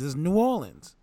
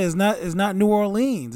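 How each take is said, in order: First: New Orleans with short "linz"; local pronunciation. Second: Loud New Orleans with long "leenz"; wrong pronunciation. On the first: Retelling locals' correction, New Orleans with short ending. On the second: Retelling locals' scolding, New Orleans with "leenz". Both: Retold or imitated. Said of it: "Stop saying that".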